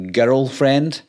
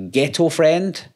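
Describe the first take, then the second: First: Put-on "girlfriend" with a tapped r, almost "gerrul-friend"; girlfriend, Scottish way. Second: "ghetto friend" with a crisp t in ghetto; ghetto pronunciation. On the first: Scot showing viewers the word really meant, clearly enunciated. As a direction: roll the r lightly in "girlfriend", no t. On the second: YouTuber showing viewers what people mishear, clearly enunciated. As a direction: say "ghetto" with a clear t, slowly set apart. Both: Shown as a demonstration. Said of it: "I'll say it here today".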